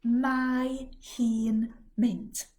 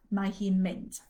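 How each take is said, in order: First: Mae hi'n mynd, spelled out very slowly. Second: Said in the usual way. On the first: Shown as a demonstration. Teacher slowing a phrase for learners. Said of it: "She's going". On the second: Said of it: "Try it".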